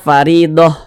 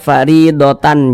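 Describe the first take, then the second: First: The word ends with a soft h sound. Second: The word ends with a full tan ending. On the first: The speaker calls it right. "kita baca faridoh" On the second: The speaker calls it wrong. "jangan dibaca faridotan, jangan"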